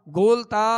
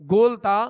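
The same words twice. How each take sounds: Both takes have the same delivery.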